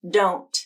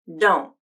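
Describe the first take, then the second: First: The final T is clearly released. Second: The final T is cut off by a glottal stop. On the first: "with a true T" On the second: "and then a stop T"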